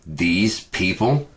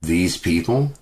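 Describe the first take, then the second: First: Incredulous echo. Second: Disbelieving echo. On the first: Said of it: "And it's like". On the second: Vlogger scoffing at the cashier's words, disbelieving. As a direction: repeat her words in disbelief. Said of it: "repeats the quote". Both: Retold or imitated.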